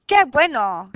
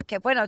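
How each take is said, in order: First: Loud, higher exclaimed Qué bueno; cheerful exclamation Qué bueno. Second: Said in the usual way. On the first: Shown as a demonstration. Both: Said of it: "es una exclamación".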